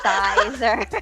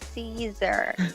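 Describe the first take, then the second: First: The name sounds like the word sizer. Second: The name sounds like the word Caesar. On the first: The speaker calls it wrong. "not Sizer" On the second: The speaker calls it right. "it's Caesar"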